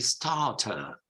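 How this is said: The R sounds are silent. "in British English would be starter. You would not pronounce any of those R's"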